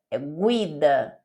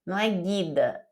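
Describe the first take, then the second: First: Guida said gwi-da, the u sounded, slowly; Italian guida. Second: Guida said ghi-da, the u silent; wrong way. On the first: Teacher shows the right Italian guida, slowly. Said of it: "você precisa falar separado". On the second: Teacher shows the wrong guida. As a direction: say guida the Portuguese way, as the mistake. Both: Shown as a demonstration.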